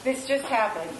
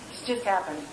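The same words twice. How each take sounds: First: Said in the usual way. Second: Hint of a sly, lower devil's voice; low, quiet devil's taunt. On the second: Repeating what the devil told her, low and sly. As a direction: drop the voice and let the devil whisper it. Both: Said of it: "I hear the devil say".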